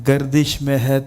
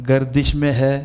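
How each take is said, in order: The two takes are said the same way.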